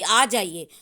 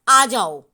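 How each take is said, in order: First: It is said in a loving tone. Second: It is said in an angry tone.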